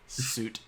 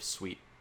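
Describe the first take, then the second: First: The word rhymes with 'boot'. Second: The word rhymes with 'sweet'. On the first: The speaker calls it wrong. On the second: The speaker calls it right. "it's pronounced Creative Suite"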